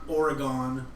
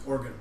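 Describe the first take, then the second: First: The middle vowel is full and clearly pronounced. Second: The middle vowel is tiny, ending like gun. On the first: The speaker calls it wrong. "All you Minnesotans pronounce it wrong. It's not Oregon" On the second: The speaker calls it right. "O R, a teeny little E, and then G U N"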